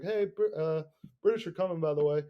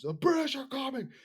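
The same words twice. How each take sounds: First: Casual, hesitant mock announcement; without conviction. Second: High, hollered alarm cry; shouted with conviction. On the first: Host imagines a timid messenger warning town, without conviction. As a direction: toss it out like an afterthought. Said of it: "but without conviction". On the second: Acted. Host acts Paul Revere on horseback, shouting with conviction. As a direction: cry out a warning to the town. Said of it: "he said it with conviction".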